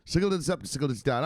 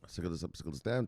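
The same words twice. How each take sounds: First: The host's signature line, belted high; catchphrase callout. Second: Soft, low-key run-through; mumbled catchphrase. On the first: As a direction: sing out the show's catchphrase. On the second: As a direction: toss it off half under the breath. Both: Acted. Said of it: "say it how we say it".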